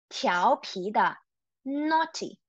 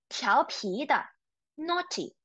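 No difference in how they are said.

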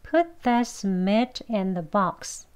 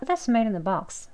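First: The sentence is spoken slowly and carefully. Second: The sentence is spoken very fast. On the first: "천천히 같이 해볼게요" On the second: "더 빨리 발음하시게 되면"

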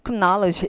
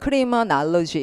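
First: The middle vowels are reduced to weak sounds. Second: The middle vowels are pronounced fully and clearly. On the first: "근데 발음을 Criminology 이러더라고요" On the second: "우리 같으면 Criminology 이렇게 돼야 되잖아요"

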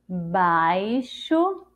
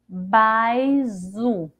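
First: The x is sounded as sh. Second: The x is sounded as a z. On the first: The speaker calls it right. "E com o som do C H?" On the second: The speaker calls it wrong. "Ficaria assim se fosse com som dizer"

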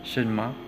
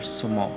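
First: The word is said in its full form. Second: The word is said in a reduced form. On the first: "Bigkasin mo lang siya ng mabilis" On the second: "pwede rin siyang i-pronounce as"

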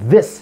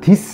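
First: The first sound has the tongue between the teeth. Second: The first sound is a plain stop without tongue out. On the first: The speaker calls it right. "혀가 나와주는 게 중요하죠" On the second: The speaker calls it wrong. "this 아니고요"

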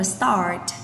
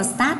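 First: The vowel is deep, with a raised-tongue R. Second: The vowel is plain, without an r-coloured ending. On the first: The speaker calls it right. "mà hãy đọc là start" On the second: The speaker calls it wrong. "từ đây không đọc là start đâu ạ"

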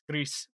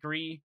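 First: The name is said with Spanish pronunciation. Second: The name is said with French pronunciation. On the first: The speaker calls it right. "cause it's Spanish" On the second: The speaker calls it wrong. "sorry, it's the French pronunciation"

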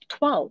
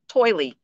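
First: The word ends without any 'ee' sound. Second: The word ends with an added 'ee' sound. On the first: The speaker calls it right. "They're telling me, yes, that I got 12" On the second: The speaker calls it wrong. "That's how I used to say it. I used to call it like toily"

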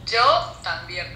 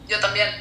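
First: It is said slowly. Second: It is said fast.

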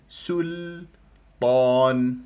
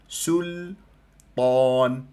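No difference in how they are said.

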